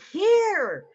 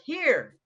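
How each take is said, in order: First: It is yelled loudly. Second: It is said at normal volume.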